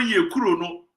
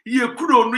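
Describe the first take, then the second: First: Said in the usual way. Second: Louder, higher first take of the phrase yɛ kuro no; yɛ kuro no hit high and loud; emphatic repeat. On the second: Real, not acted. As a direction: punch yɛ kuro no hard the first time. Repeats phrase to drive point.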